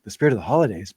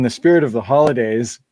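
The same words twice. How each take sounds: First: A hint of eye-rolling sarcasm on "spirit"; mock solemn. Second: Said in the usual way. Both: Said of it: "and everyone's like".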